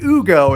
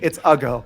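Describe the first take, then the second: First: The name is said with a fancy, elegant sound. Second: The name is said plainly, like the word ugly. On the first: The speaker calls it wrong. "I was trying to make it sound all fancy" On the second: The speaker calls it right. "He's calling him ugly"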